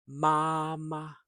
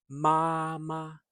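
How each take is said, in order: Both takes have the same delivery.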